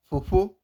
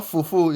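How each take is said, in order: First: "fofo" with the Urhobo PH sound; correct pronunciation. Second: "fofo" with a plain English F; ordinary F in both syllables of "fofo"; mistaken pronunciation. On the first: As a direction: demonstrate "fofo" with PH, not a plain F. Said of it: "fofo, not fofo". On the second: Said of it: "not fofo". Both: Shown as a demonstration.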